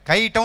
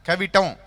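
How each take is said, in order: First: The middle syllable is dropped, with no 'v'. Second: The middle syllable is kept, with a 'v'. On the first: This is how local people used to say it. The speaker calls it wrong. "రాక కవిటం అని పలకడం సావ రా వచ్చి సావక ఏమనేవారు, కైటం అనేవారు" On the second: This is the actual name of the place. The speaker calls it right. "Actually కైటం కాదు కదా, కవిటం"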